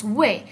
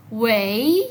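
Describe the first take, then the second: First: "wei" short with a falling tone; cuarto tono. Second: "wei" drawn out, dipping then rising; tercer tono. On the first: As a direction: drop the pitch on "wei", keep it brief. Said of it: "no decimos wei". («wei» en cuarto tono, breve y descendente) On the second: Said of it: "Este tercer tono". («wei» en tercer tono, largo y con subida final) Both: Shown as a demonstration.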